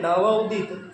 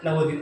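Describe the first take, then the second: First: There is a short pause between the parts. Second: The two parts run together without a break.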